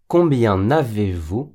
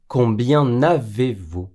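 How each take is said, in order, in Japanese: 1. nの音がcombienをavezとつなげます。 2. nの音がcombienをavezとつなげます。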